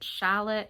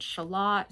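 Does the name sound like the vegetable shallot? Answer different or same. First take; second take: same; different. First: It sounds the same as the vegetable word shallot. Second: It sounds different from the vegetable word shallot. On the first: "some people pronounce it Shallot" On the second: "some people pronounce it Shalott"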